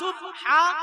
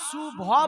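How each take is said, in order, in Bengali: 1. স্পষ্ট b-এর পর একটি আলাদা h আসে। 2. b আর h মিশে একটি v-সদৃশ একক ধ্বনি হয়। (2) "সুভা বলে কোনো শব্দ নাই"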